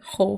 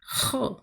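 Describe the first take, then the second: First: The h sound is soft and breathy. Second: The h sound is harsh and scraped in the throat. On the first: This is how it sounds in Venezuela. "for me, it would be" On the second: This is how it sounds in Spain. "like if you're going to spit or something"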